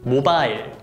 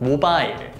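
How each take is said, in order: First: It is said with Korean pronunciation. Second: It is said with Korean pronunciation.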